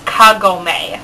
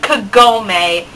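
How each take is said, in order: First: The middle syllable is not stressed. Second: The middle syllable is stressed. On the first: The speaker calls it right. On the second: The speaker calls it wrong.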